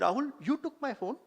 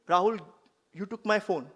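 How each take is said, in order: First: It is said as a question. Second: It is said as a plain statement. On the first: The speaker asks whether it happened. "it's a question" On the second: The speaker states a fact.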